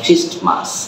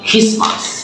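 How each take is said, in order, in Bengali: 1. মাঝখানে t উচ্চারিত হয়। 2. t উচ্চারণটি পুরোপুরি বাদ যায়।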